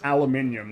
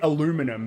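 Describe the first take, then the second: First: It is said with five syllables, the local way. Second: It is said with four syllables, as the listener says it.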